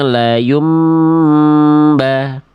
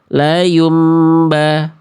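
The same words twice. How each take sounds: First: The nasal sound is held before moving on. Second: The nasal sound is rushed without holding. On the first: The speaker calls it right. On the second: The speaker calls it wrong. "kalau yang A tadi begini"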